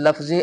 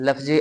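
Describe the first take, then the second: Both takes have the same delivery.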